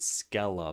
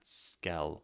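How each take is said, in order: First: It is said as two syllables, Ska-la. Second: It is said as one syllable, rhyming with skill. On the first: This is how a reader would say the spelling. "you would pronounce it Scala points" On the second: This is the intended pun on skill. "not Skell like skill"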